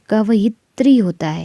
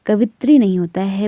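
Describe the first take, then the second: First: कवयित्री said slowly as kavayitri, the correct form. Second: कवित्री said as kavitri, the wrong form; कवित्री without य. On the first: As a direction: sound out the य in कवयित्री. (कवयित्री य के साथ धीरे) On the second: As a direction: say कवित्री with no य sound. (कवित्री बिना य के) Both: Shown as a demonstration.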